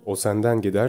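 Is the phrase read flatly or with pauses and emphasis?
flatly. It is read flatly, ignoring the comma pause. The speaker calls it wrong. "Şu anda tamamen yanlış bir şekilde okuyacağım"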